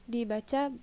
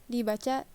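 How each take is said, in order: Both takes have the same delivery.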